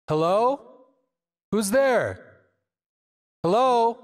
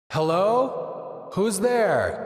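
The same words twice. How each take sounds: First: Calling out into an open space with delay. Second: Calling out into a reverb wall; cave echo. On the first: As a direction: call out with airy distant echoes. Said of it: "Now we have this open space". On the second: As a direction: call into a blurred wall of reverb. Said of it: "You see a wall of sound". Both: Shown as a demonstration.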